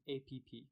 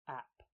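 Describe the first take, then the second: First: It is said with a Chinese-style pronunciation. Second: It is said with a standard English pronunciation. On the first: The speaker calls it wrong. "That is how they say it in Chinese" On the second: The speaker calls it right. "we pronounce it app"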